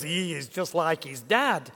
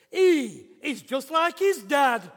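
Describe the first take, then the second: First: Put-on toned-down Yorkshire accent at an everyday pitch. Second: Big, high, drawn-out Yorkshire voice; broad Yorkshire accent. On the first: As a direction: repeat it in milder, quicker Yorkshire. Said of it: "never quite puts it in those words". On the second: Retold or imitated. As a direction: blurt it out slowly in broad Yorkshire. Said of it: "broad Yorkshire accent".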